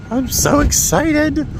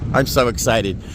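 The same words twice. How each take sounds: First: High, loud, drawn-out squeal of excitement; real excitement. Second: Said in the usual way. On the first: Real, not acted. Voter stepping out after casting the ballot, excited. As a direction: squeal it slowly, bursting with excitement.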